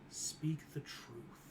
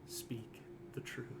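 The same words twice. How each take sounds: First: It is said softly and gently. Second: It is said firmly, like an order. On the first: It is no longer a command. "the tone seems different. ... softly fills you in" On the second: It is a command. "Instead of an order"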